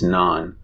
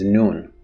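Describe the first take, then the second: First: The word is said with an open 'ah' vowel. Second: The word is said with a rounded 'oo' vowel. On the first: This is the formal written form of the word. "The word for bread in bookish Persian is naan" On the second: This is the everyday spoken form of the word. "almost always people pronounce it as noon"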